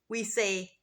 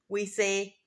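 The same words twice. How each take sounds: Both takes have the same delivery.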